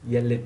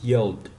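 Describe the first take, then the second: First: The ending is said as an extra syllable. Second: The ending joins the word as one syllable. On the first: The speaker calls it wrong. "You're not gonna say yell it" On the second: The speaker calls it right. "No, this is yelled"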